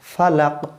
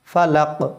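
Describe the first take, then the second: No difference in how they are said.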